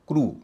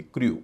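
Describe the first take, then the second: First: क्रू said as "kroo"; pure oo after the r in क्रू; correct oo sound. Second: क्रू said as "kryoo"; wrong-example क्रू, "kri-yoo"; mistaken y-glide. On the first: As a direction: model क्रू with no y-glide. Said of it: "उच्चारण हो रहा है ऊ". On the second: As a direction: put a y before the oo in क्रू. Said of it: "न कि क्रू". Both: Shown as a demonstration.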